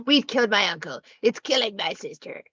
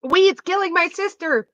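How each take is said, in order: First: Valley girl impression. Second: Put-on much higher Valley girl whine; hammed-up ditzy Valley girl mocking Lily; squeaky mock Valley girl. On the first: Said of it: "the classic Valley girl". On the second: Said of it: "the voice you do for Lily".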